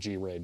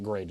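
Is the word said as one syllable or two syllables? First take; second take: two syllables; one syllable. First: It is said as a letter G, then 'raid'. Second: It is said as one syllable, like 'grade'. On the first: "instead of G-RAID" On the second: "I did pronounce that grade"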